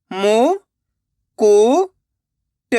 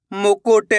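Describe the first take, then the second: First: मु, कु, ट each on its own, long pauses; syllable by syllable. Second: Said in the usual way. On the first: Shown as a demonstration. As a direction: sound out मु, कु, ट one by one. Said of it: "एक एक अक्षर का उच्चारण करके". (मु, कु, ट एक-एक अक्षर रुक-रुक कर) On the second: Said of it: "तो मिलके बन जाएगा".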